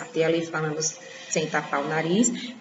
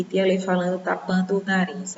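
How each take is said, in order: First: Said in the usual way. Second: Talking with the nose held shut; nose pinched. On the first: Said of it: "Olha lá a diferença". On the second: Shown as a demonstration. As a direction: pinch the nose and speak through it. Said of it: "Olha que diferença".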